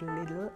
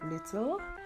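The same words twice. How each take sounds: First: The middle t sounds like a soft d. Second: The middle t is a clear t sound. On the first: "I almost just now said little" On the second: "instead of little"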